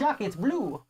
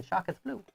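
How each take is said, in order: First: Light mock French accent on "Shock, it's blue"; a playful hint of a French accent, "Shock" said like "chic". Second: Said in the usual way. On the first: Husband teasing wife over the game, mock French accent. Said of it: "I won't do my French accent". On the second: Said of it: "I'm not making fun of French people".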